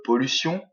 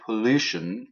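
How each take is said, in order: First: Pollution said the French way, nasal final vowel; French pronunciation. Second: English pollution, po-LU-tion with a sh sound; stress on second syllable. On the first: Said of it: "certains m'ont parlé de pollution". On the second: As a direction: hit LU in pollution, falling after it. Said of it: "c'est la deuxième syllabe qui est accentuée". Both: Shown as a demonstration.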